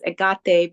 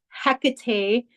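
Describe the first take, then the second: First: The name begins without an H sound. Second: The name begins with an H sound. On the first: The speaker calls it right. "the true pronunciation is Agate because the H is silent in Greek" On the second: The speaker calls it wrong. "some people know her as"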